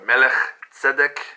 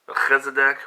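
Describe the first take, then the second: First: The name is said as two words, Melech Tzedek. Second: The name is said as one word, Melchizedek. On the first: The speaker calls it right. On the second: The speaker calls it wrong.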